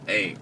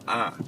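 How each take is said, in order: First: The vowel is an 'ay' sound. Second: The vowel is an open 'ah' sound. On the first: "they don't pronounce it as a" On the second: "they're only taught the um pronunciation of the word a as ah"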